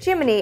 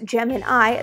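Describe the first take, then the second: First: The final syllable is pronounced 'ee'. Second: The final syllable is pronounced 'eye'. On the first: It refers to the NASA program. "the NASA guys preferred pronouncing it Gemini, as in cricket" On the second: It refers to the zodiac sign. "Unlike the zodiac sign named the Gemini, pronounced Gemin-eye"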